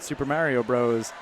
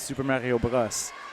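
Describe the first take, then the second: First: The name is said with an English accent. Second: The name is said with a French accent.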